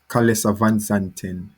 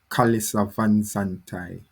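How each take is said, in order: First: The surname ends with a 'ten' sound. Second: The surname ends with a 'tai' sound. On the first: "The Dutch pronunciation is" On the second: "In Guy-Fermier, it's pronounced"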